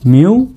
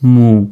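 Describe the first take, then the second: First: A y glide comes before the vowel. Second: No y glide comes before the vowel. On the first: "মিউ মু দুটা উচ্চারণই হয়ে থাকে" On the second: "মিউ মু দুটা উচ্চারণই হয়ে থাকে"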